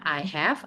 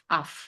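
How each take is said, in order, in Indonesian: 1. Kedua kata diucapkan lengkap. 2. Kedua kata dipendekkan menjadi satu suku kata. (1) "bisa bacanya I have" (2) "dipendekin bacanya of"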